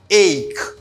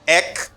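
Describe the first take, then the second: First: It is said with a long 'ay' vowel. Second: It is said with a short vowel, like 'eck'. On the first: The speaker calls it right. "You have to pronounce it as ache" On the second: The speaker calls it wrong. "it's not the good sound at all"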